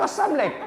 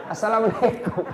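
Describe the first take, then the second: First: "assamlek" clipped and swallowed, mocking; mocking slurred greeting. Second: "Assalamualaikum" with every syllable given; correct full salam. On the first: Preacher mocking a student's lazy salam, clipped and slurred. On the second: Preacher correcting the student, giving the full salam. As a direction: say the greeting whole and proper. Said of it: "apa usah gitu". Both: Shown as a demonstration.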